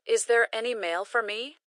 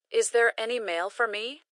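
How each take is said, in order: Both takes have the same delivery.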